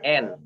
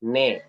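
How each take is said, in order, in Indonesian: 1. Vokal datang sebelum konsonan: en. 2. Vokal datang setelah konsonan: ne. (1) "bukan N" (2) "tapi ne"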